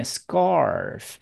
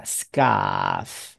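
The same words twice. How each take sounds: First: "scarf" with a heavily curled R; American-style "scarf", R clearly sounded before the F; American strong R. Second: "scarf" said "skahf", with no R sound; British silent R. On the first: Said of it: "美国人是念scarf". (美式 scarf，卷舌音很重) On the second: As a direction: model British "scarf" with a long open vowel. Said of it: "英国人就不卷舌了". (英国腔 scarf，不卷舌) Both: Shown as a demonstration.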